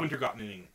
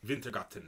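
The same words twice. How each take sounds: First: The name is said with English pronunciation. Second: The name is said with Swedish pronunciation. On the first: "without the accent" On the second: "is how he pronounces it"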